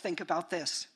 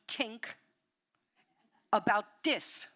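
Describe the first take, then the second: First: The th sounds are said as real th. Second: The th sounds are said like t and d. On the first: "instead of think about this" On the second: "The T H th consonant doesn't exist in Spanish. So we think about this"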